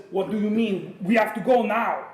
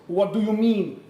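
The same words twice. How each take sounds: First: Put-on louder, higher big Russian bear accent; hammed-up Russian bear voice. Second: Put-on botched big Russian bear accent, higher and louder; shaky first stab at a Russian character. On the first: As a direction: push out a clumsy, urgent Russian accent. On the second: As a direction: attempt a big Russian bear's accent, badly. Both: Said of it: "he's Russian, he's gonna talk like the big Russian bear".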